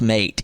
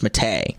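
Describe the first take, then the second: First: It is said like the plain English word. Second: It is said the Spanish way, in two syllables. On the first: The speaker calls it wrong. "no, it's not pronounced" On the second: The speaker calls it right. "it's pronounced"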